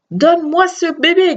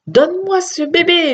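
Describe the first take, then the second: First: Shouting. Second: Demanding. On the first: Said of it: "cria-t-il". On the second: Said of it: "lui demanda-t-il". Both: A narrator's reading.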